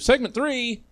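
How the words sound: It sounds confused or surprised.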